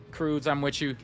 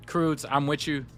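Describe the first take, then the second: No difference in how they are said.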